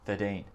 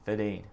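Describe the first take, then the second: First: The R sound in thirteen is left out. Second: The same.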